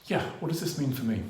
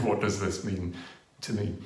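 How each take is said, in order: First: Said in the usual way. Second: "what does this mean" held, then a gap before "to me"; pause before to me. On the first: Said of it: "the audience has this pause". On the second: Shown as a demonstration. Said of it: "left a question hanging".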